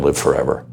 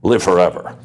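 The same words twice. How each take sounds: First: "live forever" with live leaned on; stress on live. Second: "live forever" with live hit harder; stress on live. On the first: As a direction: press "live" to mean literally. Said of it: "I don't mean go to heaven". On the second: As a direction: land firmly on "live", insisting. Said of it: "I mean". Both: Real, not acted.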